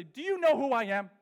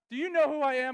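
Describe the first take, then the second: First: Louder, higher, mock-offended demand; mock outrage at the camp staff, loud and indignant; indignant outburst. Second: Louder, higher, hammed-up grievance; mock tirade about the bunk bed, loud and high; indignant outburst. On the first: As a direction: puff up like a slighted celebrity. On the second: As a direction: rant like a pampered star. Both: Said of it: "wanted to go to the Young Life staff and say".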